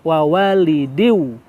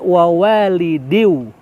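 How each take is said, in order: Both takes have the same delivery.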